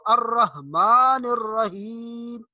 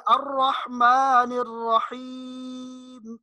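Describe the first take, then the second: First: Slow الرحمن الرحیم with plain h; wrong soft ha. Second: Slow higher chant, pharyngeal ح in الرحمن الرحیم; correct deep ha. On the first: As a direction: soften ح in الرحمن الرحیم to ordinary h. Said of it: "نہیں پڑھنا". (الرحمن الرحیم میں ہلکی ہا) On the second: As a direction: draw out الرحمن الرحیم with throat ha. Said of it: "بلکہ". (الرحمن الرحیم میں حلق سے حا، کھینچ کر) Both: Shown as a demonstration.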